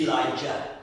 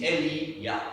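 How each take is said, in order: First: Said in the usual way. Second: "Eli-yah" said as eh-lee-YAH, with a clear y sound; Hebrew pronunciation. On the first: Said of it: "The Anglo-Saxon English pronunciation is". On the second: Shown as a demonstration. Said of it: "the original Hebrew is".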